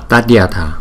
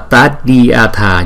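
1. Từ Tadyatha được đọc nhanh. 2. Từ Tadyatha được đọc với tốc độ bình thường. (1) "chúng ta đọc nhanh là Tadyatha" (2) "Ở chỗ này đó là Tadyatha"

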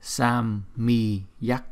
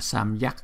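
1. Âm y dài, kéo thành hai âm tiết. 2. Âm y ngắn, chỉ một âm tiết nhanh. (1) "chúng ta đọc là samyak. Chỉ cái chữ y dài này thành ra là hai chữ" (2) "chúng ta không có đọc là samyak"

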